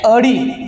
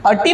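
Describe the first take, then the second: First: अडी with a voiced retroflex d, ḍ; अडी, the corrected d-sound version. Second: अटी with a hard t sound, ṭ; अटी, the mistaken t-sound version; wrong sound in अटी. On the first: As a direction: say अडी with ड in place of ट. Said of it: "अटी नाही, अडी". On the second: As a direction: say अटी with ट in place of ड. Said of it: "अटी नाही". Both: Shown as a demonstration.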